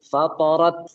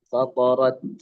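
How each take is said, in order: First: The final t is released with an s-like hiss. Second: The final t is released cleanly without hiss. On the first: The speaker calls it wrong. "Maka jangan sampai ada S-nya. Jangan fatorat, fatorat. Nah itu itu salah ya" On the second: The speaker calls it right. "Yang benar adalah"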